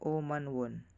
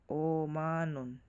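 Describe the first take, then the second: First: A w sound begins the last syllable. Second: No w sound begins the last syllable. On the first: The speaker calls it wrong. "Hindi siya Omanwon" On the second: The speaker calls it right. "laging silent W"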